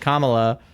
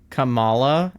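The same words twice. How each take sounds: First: The stress is on the first syllable. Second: The stress is on the second syllable. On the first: The speaker calls it right. "it's actually Kamala" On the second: The speaker calls it wrong. "the English language would probably pronounce that, like, where we put emphasis on, like, the second syllable"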